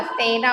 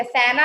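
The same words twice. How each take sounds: First: सेना said as the right spelling, lower; teacher gives the correct सेना to pupils; correct form said. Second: सेना said as the wrong spelling; teacher voices the wrong सेना to pupils; wrong form said. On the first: Correct सेना, lower. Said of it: "सेना होता है". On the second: Wrong सेना, plainly said. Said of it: "सेना नहीं होता". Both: Shown as a demonstration.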